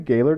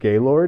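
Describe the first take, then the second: First: The last syllable sounds like 'lurd'. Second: The last syllable sounds like 'lord'.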